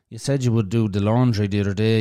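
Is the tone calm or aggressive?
calm. It is said in a calm, discussing tone.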